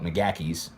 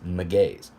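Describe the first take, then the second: First: The name is said with three full syllables. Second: The name has two syllables, stressed on G. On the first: This is how the speaker would naively say it. The speaker calls it wrong. "I'd walk into that shop and hands down call it McGacky's" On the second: This is how people in the UK say it. The speaker calls it right. "it's a two syllable with an emphasis on the G"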